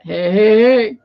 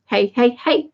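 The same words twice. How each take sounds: First: Lightly voiced cartoon catchphrase, last hey louder; a hint of a cartoon character's drawn-out call; Fat Albert. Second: Lightly chanted hey-hey-hey, stepping upward; a hint of a kids' comedy catchphrase; Little Rascals. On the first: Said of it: "Fat Albert". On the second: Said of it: "I was thinking of the Little Rascals".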